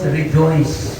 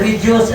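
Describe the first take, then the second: First: The word is said clearly in standard English. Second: The word is said in a heavy local accent. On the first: The speaker calls it right. "ang ibig sabihin" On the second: The speaker calls it wrong.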